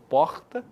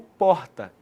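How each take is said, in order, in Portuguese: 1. O R é um som áspero vindo da garganta. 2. O R é um som suave que passa pela garganta. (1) "aquele R gutural, em que o som ele vem da garganta" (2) "o som passa mais suavemente pela garganta"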